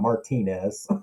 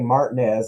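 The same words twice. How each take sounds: First: It is said the non-local, outside way. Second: It is said the local Georgia way.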